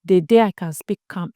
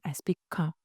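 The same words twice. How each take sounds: First: Said in the usual way. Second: Softer, calm and gentle; calm demo, much softer. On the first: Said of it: "The day I speak like this". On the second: Shown as a demonstration. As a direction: let it settle down quietly.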